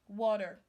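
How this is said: The T is pronounced like a D. "You turn your letter T sound to D"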